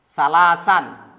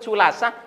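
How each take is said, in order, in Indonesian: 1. Kata itu diakhiri dengan bunyi n tambahan di akhir. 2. Kata itu diakhiri tanpa bunyi n di akhir.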